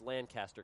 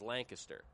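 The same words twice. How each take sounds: First: The name is said the California way. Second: The name is said the Pennsylvania way. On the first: This is how the California city and the player are named. "in California, it's Lancaster" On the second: This is how the Pennsylvania city is named. "everybody from PA says Lancaster"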